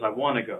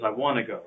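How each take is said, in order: First: Want to is contracted to wanna. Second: The same.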